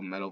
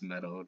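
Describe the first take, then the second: First: The word ends with a clear L sound. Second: The word ends with an O-like vowel.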